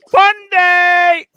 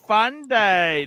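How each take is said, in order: First: Fun day yelled out high and loud; excited shout. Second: Said in the usual way. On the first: Real, not acted. Host hyping his viewers, loud excited shout. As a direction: hype the stream with a big shout.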